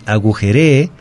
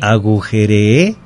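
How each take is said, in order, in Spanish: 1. El acento está en la penúltima sílaba. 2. El acento está en la última sílaba. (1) "agujere es dar una orden" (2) "Agujere es en pasado, ajá, primera persona"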